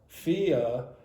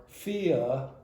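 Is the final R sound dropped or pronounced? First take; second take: dropped; dropped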